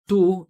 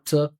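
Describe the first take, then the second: First: The word has a full, long vowel. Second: The word has a short, reduced vowel. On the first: The speaker calls it wrong. "it sounds like like they also have two" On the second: The speaker calls it right. "When you use the schwa, it's obvious for the listener"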